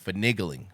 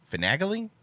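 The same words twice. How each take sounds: First: "Finagling." said lower as fə-NIG-ling, falling; "Finagling." with a short i, flat close; settled word. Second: "Finagling?" said as fə-NAG-ling with a rising question; checking "Finagling?" pronounced fə-NAG-ling, rising; questioning word. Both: Shown as a demonstration.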